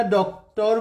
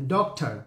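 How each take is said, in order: First: "ডক্টর" ending in a rounded -tor; Bengali pronunciation. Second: "ডক্টর" ending in -tar, with an open a; English pronunciation. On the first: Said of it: "আমরা ডক্টর বলছি, কিন্তু ইংরেজিতে টার বলে". ("ডক্টর"-এর শেষে "টর", বাঙালি উচ্চারণে) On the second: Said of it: "কিন্তু ইংরেজিতে টার বলে". ("ডক্টর"-এর শেষে "টার", ইংরেজি উচ্চারণে) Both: Shown as a demonstration.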